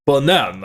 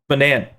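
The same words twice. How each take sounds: First: Attempted foreign accent on Banan, second vowel a broad open ah. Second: Said in the usual way. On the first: Shown as a demonstration. Reading out a commenter's banana joke, attempted accent. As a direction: say Banan with a put-on accent, as ba-NAHN. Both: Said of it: "but with an accent".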